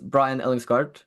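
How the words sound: The name is pronounced the English way. "if you're gonna Englishise it"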